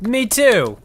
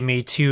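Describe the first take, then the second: First: It is said in an excited, eager tone. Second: It is said in a hurt, complaining tone. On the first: The speaker happily agrees to the plan. "saying it with an excited yes" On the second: The speaker feels left out of the invitation. "not like, "Hey, me too, you left me out.""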